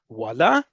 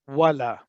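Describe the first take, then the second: First: The word is said with a questioning tune. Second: The word is said with a flat, level pitch. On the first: "question mark at the end of it, voila means really"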